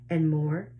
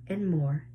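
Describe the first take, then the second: No difference in how they are said.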